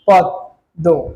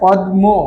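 First: The m is silent and the d doubles. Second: The m sound is pronounced in the word. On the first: The speaker calls it right. "পদ্ম উচ্চারণ করতে গিয়ে আমরা এমনটা বলি" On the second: The speaker calls it wrong. "বলি না পদ্ম, এমনটা কিন্তু বলি না। এখানে মটা কিন্তু উচ্চারিত হয় না।"

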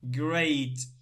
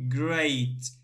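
First: The vowel sounds like ay. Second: The vowel sounds like ay.

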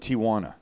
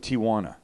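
First: The name is said with three syllables. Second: The same.

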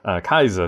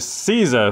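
First: The word begins with a K sound. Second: The word begins with an S sound. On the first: "or some people pronounce it Kaiser" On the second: "welcome back to Caesar 3"

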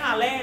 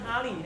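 First: The second syllable sounds like 'lay'. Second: The second syllable sounds like 'lee'. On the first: The speaker calls it wrong. "ไม่ฮาร์เลย์นะครับ" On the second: The speaker calls it right. "มันฮาร์ลีย์นะครับ"

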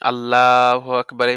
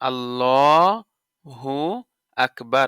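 First: No vowel follows Allah before Akbar. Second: A short u vowel follows Allah. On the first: The speaker calls it wrong. "আল্লাহ বলা যাবে না... সেগুলো একটু ভুল যায়" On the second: The speaker calls it right. "তো কি হবে আল্লাহু আকবার"

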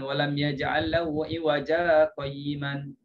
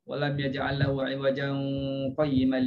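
First: The word ends in a single short vowel. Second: The words link with a nasal hum from tanwin. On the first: The speaker calls it wrong. "Bukan dia baris satu ya" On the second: The speaker calls it right. "nak sambungnya berdengunglah"

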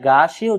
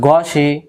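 First: The first vowel is a drawn-out aa sound. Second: The first vowel is a short a sound. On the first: The speaker calls it wrong. "গাসি উচ্চারণ করি তাহলে এই গইন জবর গা উচ্চারণ সহি নয়" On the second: The speaker calls it right. "গইন জবর গ, সিন জের সি"

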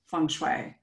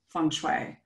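First: It is said with an Americanized pronunciation. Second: It is said with an Americanized pronunciation.

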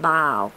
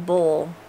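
First: Boil is said like 'bile', Alex's way. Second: Boil is said like 'bull', the speaker's way.

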